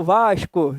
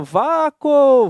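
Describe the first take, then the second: First: VASCO with the S clearly pronounced as sh; Vasco with sounded S. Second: VACO, the S dropped, stretched slowly; Vasco without the S. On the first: Teacher showing the natural reading, sh sound in VASCO. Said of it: "é natural falar Vasco". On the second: Teacher showing students a wrong reading, S dropped from VACO. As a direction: say "Vaco" drawn out with no S sound. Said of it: "Ninguém há que duvide assim". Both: Shown as a demonstration.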